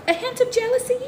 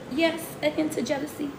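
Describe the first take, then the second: First: "A hint of jealousy?" asked back with a high rising question; "A hint of jealousy?" lifted high in mock disbelief; questioning echo. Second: "Yes, a hint of jealousy." as a knowing answer to her own question; firm confirmation. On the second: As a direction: confirm "a hint of jealousy" calmly, dropping the pitch. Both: Shown as a demonstration.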